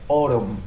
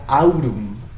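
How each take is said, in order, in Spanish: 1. La primera vocal es un solo sonido o. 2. La primera vocal son dos sonidos, como a-u. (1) "diría autumn, O, O" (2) "Y no diría autumn"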